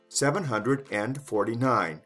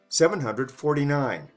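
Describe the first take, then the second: First: The number is said with both 'hundred' and 'and'. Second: The number is said with 'hundred' but without 'and'. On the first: "That's the long way"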